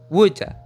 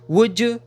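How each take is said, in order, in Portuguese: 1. A última palavra termina em uma vogal reduzida 'uh'. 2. A última palavra termina em uma vogal plena 'oo'. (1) "ou a" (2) "com o som do could you"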